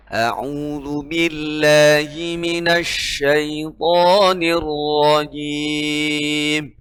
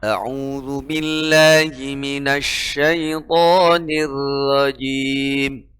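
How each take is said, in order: First: A'udzu billahi minasyaitonir rajim with a heavy r in rajim; slow recitation, thick r in rajim. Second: A'udzu billahi minasyaitonir rajim with thin r in rajim; slow recitation, rajim with light r; mispronounced rajim, thin ra; wrong thin ra. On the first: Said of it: "Harus dibaca tebal". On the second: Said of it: "Nggak boleh". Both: Shown as a demonstration.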